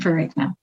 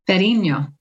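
First: The name is said with an American pronunciation. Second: The name is said with an Italian pronunciation. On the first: "That's the American pronunciation" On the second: "so in Italiano, it would be... Yes"

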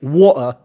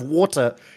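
First: The T sound in the middle is dropped. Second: The T sound in the middle is pronounced.

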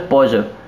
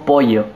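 First: It is said in a mixed regional accent. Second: It is said in a Misiones accent.

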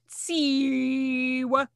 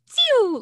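First: It is said in a deep voice. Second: It is said in a high-pitched voice.

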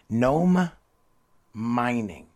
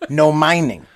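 First: The phrase is said slowly and carefully. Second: The phrase is said quickly and run together. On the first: Mining done by gnomes. "try this with me" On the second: There is no mining going on at all. "say it quick"

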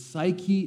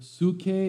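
First: The word is said with a Latin pronunciation. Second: The word is said with a Greek pronunciation. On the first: "In Latin, they would pronounce it psyche" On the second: "in the Greek is the word psyche"

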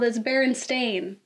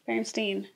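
First: The last syllable sounds like 'stain'. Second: The last syllable sounds like 'stein'. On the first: This is the current, real version of the name. "But now, in this world" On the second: This is the remembered version of the name. "that's the Stein"

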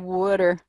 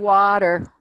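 First: It is said in a New Jersey accent. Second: It is said in a New England accent.

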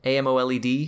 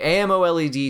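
First: Each letter of the term is said separately. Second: The term is said as one single word. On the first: "Do you pronounce that out loud?" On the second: "I would say AMOLED"

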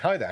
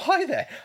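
First: The voice is pitched deep and low. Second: The voice is pitched slightly high. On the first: The speaker feels confident. The speaker calls it right. "I keep that sort of deep voice, which I like" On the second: The speaker wants to seem unthreatening. The speaker calls it wrong. "I'm talking this slightly higher voice so I don't appear threatening"

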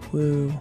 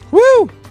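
First: It sounds flat and unexcited. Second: It sounds excited and enthusiastic.

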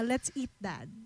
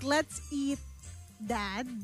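First: There is no pause before "Dad". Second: There is a pause before "Dad".

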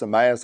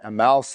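First: The name ends sounding like the word maze. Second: The name ends sounding like the word mouse.

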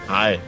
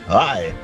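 First: It is said in an ordinary speaking voice. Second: It is said in a put-on radio announcer voice.

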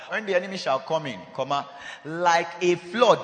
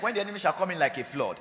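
First: There is a break after "come in". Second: It runs on with no pause after "come in".

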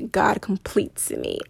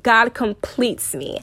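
First: It is said plainly, without added confidence. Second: It is said with noticeable confidence.

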